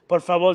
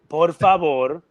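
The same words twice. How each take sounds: First: The phrase is spoken at a quick pace. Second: The phrase is spoken at a slow pace.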